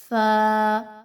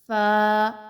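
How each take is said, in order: The two takes are said the same way.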